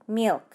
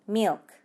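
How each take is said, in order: First: It is one syllable with a strong start. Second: The same.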